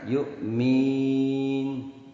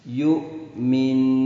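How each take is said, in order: First: The i vowel after m is held long. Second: The final nasal n hum is held long. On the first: The speaker calls it wrong. "bukan kasrohnya mim" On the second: The speaker calls it right. "Yang dipanjangkan dengungnya nun"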